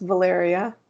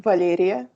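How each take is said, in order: First: Valeria said the English way; anglicised Valeria, no Russian sounds; English pronunciation. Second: Valeria said the Russian way; Russian-sounding Valeria, palatalised l; Russian pronunciation. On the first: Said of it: "my name is pronounced". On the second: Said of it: "in Russian, it would be pronounced". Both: Shown as a demonstration.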